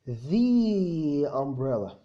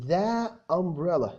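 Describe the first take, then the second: First: 'The' is said with a long 'thee' vowel. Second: 'The' is said with a short 'thuh' vowel. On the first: The speaker calls it right. "لا" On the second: The speaker calls it wrong. "ما ينفعش اقول"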